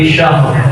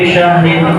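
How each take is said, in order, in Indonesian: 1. Kata itu berakhir mendadak pada huruf r mati. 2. Kata itu berakhir dengan vokal dan n. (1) "bila waqaf dibaca"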